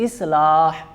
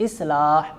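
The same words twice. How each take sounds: The two takes are said the same way.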